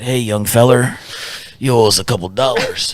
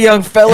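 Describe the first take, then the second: First: It is said in a put-on character voice. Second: It is said in his normal voice.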